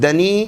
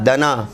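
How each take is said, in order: First: "دنی" raised in pitch, ending in ee; wrong reading dani. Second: "دنا" ending in long aa; correct reading dana. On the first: Retold or imitated. Teacher isolates the misread word, higher da-nee. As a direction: lift "دنی" higher and end on ee. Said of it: "یعنی گرا ہوا". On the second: Shown as a demonstration. Teacher isolates the correct word, da-naa. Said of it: "اس کو پڑھنے والے اکثر".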